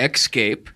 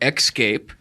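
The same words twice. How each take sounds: First: The word is said in a Baltimore accent. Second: The word is said in a Baltimore accent.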